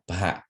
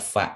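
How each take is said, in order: First: It starts with p and a forceful breath. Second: It starts with an f sound. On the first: The speaker calls it right. "but pa" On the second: The speaker calls it wrong. "it's not fa"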